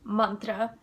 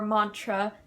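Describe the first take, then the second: First: The word has an Indian pronunciation. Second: The word has an American pronunciation.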